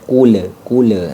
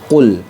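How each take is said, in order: First: The final L bounces with an added echo sound. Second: The final L stops cleanly with no added sound. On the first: The speaker calls it wrong. "menambahkan suara atau huruf" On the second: The speaker calls it right. "Jadi lamnya ini dibaca jelas"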